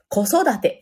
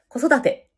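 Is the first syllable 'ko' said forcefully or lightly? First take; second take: forcefully; lightly. First: The first syllable ko is pushed out forcefully. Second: The first syllable ko is light, stress on sodate. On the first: The speaker calls it wrong. "こってめっちゃ頑張っちゃわないように" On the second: The speaker calls it right. "こうがね、なんていうのかな、おまけに聞こえるというか"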